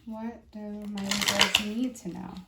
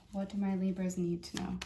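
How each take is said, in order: First: Slow, louder, drawn-out question to the cards; slow invocation. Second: Said in the usual way. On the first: Real, not acted. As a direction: call on the deck slowly and deliberately. Invoking the cards slowly.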